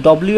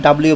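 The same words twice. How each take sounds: First: "ডব্লিউ" starting with rounded daw; short-form W pronunciation. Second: "ডাব্লিউ" starting with open da; full-form W pronunciation. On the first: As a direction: round the first vowel of "ডব্লিউ". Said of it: "এটা আমি বললাম ডব্লিউ". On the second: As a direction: open the first vowel of "ডাব্লিউ". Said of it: "এবং ডাব্লিউ বলা হয়". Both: Shown as a demonstration.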